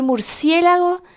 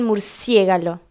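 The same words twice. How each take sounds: First: Said in the usual way. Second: "murciégalo", l and g swapped from murciélago; child's mispronunciation. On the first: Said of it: "En vez de decir". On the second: Retold or imitated. Imitating chiquitos who say it wrong, "murciégalo" with swapped sounds. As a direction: flip the last consonants: "murciégalo".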